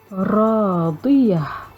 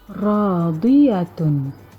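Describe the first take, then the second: First: The word ends on a soft h-sound. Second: The word ends with a full t-sound and vowel. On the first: "Huruf ta marbutah itu dibaca seolah-olah ia adalah huruf ha" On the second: "kalimahnya adalah radiyatun"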